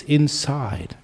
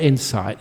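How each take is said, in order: First: "inside" with a voiced final d; "inside" said as two clear parts, in-side; corrected to "inside". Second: "insight" with a crisp final t; "insight" said as the common name, ending in t; mispronounced as "insight". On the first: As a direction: stretch "side" in "inside", ending on d. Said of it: "People just, they pronounce it wrong". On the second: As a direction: end "insight" on a short t sound. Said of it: "they pronounce it wrong". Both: Shown as a demonstration.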